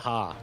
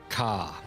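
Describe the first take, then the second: First: The word begins with a breathy H sound. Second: The word begins with a hard K sound. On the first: The speaker calls it right. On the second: The speaker calls it wrong.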